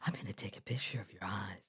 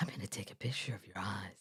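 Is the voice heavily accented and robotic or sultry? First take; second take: sultry; sultry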